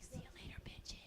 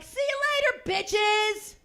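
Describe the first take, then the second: First: Whispered, breathless see-ya; sly whispered goodbye. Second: Brash shouted see-ya; loud farewell shout. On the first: Shown as a demonstration. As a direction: hush it so nobody in class hears. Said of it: "I don't say it that loud because I respect the space". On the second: Pretend. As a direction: yell it across the yoga class, louder and higher. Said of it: "I don't say it that loud".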